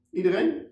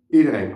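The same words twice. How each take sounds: First: Iedereen asked with a high rising tune; disbelieving Iedereen, rising up at the end; questioning. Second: Iedereen said firmly with a falling tune, louder; firm answer. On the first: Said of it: "vraagt Robin". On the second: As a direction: settle it: Iedereen, falling flat and sure. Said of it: "antwoord ik". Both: Acted.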